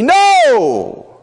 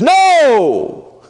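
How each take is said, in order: First: Very high, loud shouted no; shouted protest. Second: Sudden high shouted no; shouted protest. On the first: The carnal reaction to Jesus' death, a shouted no. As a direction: yell the refusal. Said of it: "our carnal fleshly reaction would be". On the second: Peter shouting his refusal at Jesus. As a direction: cry out in protest, high and loud. First take. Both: Acted.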